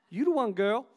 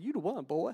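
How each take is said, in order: First: Said in the usual way. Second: Mock Southern belle line to her man; southern accent. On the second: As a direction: imitate wife with a put-on Southern accent. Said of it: "she's got a southern accent when she says that".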